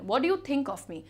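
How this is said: It is said in an angry tone.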